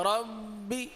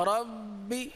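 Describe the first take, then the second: The two takes are said the same way.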